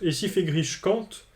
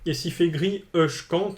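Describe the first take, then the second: First: It runs straight into 'je' with no added vowel. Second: A short pause and added 'e' come before 'je'. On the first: "il pourrait dire je compte" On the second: "avec une petite pause entre les mots"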